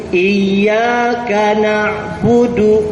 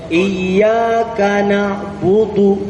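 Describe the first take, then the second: Both takes have the same delivery.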